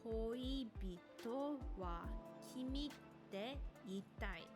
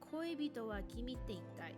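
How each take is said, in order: First: The phrase is spoken very slowly. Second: The phrase is spoken at a faster pace. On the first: "So very slowly" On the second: "A little bit faster"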